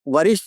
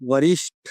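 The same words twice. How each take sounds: First: The retroflex t is said without aspiration. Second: The retroflex t is said with strong aspiration. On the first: The speaker calls it wrong. "नहीं होता है" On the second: The speaker calls it right. "होता है"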